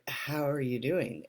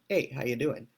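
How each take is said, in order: First: It is said sincerely, with real concern. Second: It is said casually and offhandedly.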